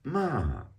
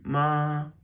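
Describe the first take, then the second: First: The pitch falls sharply from high. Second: The pitch stays high and level.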